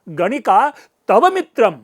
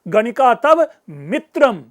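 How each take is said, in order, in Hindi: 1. शब्द 'tava' पर बलाघात है। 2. शब्द 'mitram' पर बलाघात है। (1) "उस तव पर व्यंग्य आ जाएगा" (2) "गणिका तुम्हारा मित्र है, शत्रु नहीं"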